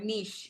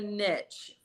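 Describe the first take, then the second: First: Niche is said with its more formal pronunciation. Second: Niche is said with its everyday casual pronunciation.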